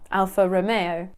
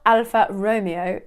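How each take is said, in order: First: Romeo is said the Italian way. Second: Romeo is said like the English name. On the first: The speaker calls it right. "it's an Italian brand, so it should be Alfa Romeo" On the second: The speaker calls it wrong. "it sounds like Romeo and Juliet"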